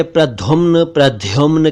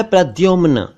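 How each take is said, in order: First: प्रद्युम्न as "praddhumn", then "praddhyumn"; aspirated dh in both takes of प्रद्युम्न; breathy dh replacing d in प्रद्युम्न; common mispronunciations. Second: प्रद्युम्न as "prad-dyumn", plain d; higher, careful प्रद्युम्न; correct pronunciation. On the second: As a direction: clean d-y in प्रद्युम्न. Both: Shown as a demonstration. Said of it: "जबकि यह है".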